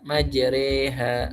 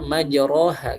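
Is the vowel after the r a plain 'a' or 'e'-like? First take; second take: e-like; a. First: The vowel after r leans toward e. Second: The vowel after r is a plain open a. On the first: The speaker calls it right. "dibacanya dengan imalah saja tidak fathah" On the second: The speaker calls it wrong. "Dibaca pakai fathah"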